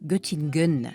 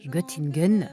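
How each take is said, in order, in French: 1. Il se prononce avec un accent français. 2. Il se prononce avec un accent français.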